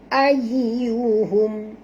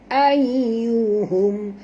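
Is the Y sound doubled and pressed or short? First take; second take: doubled; doubled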